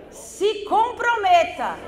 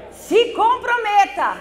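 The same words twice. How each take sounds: The two takes are said the same way.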